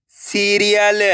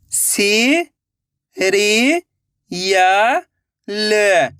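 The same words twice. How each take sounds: First: Said in the usual way. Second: सी, री, या, ल each said on its own with pauses; letter by letter. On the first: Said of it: "इनको आपस में लाके पढ़ना है". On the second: Shown as a demonstration. Teacher sounding out serial for pupils, syllable by syllable. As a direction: call out each syllable separately. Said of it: "एक एक अक्षर का उच्चारण करके".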